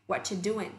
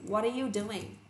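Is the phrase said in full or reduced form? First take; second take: reduced; full. First: It is said fast, dropping are and the final g. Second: Every word is said fully, including are. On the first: "người ta sẽ lên nhanh thành what you doing? Không có chữ g nữa" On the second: "Bằng với cụm từ what are you doing?"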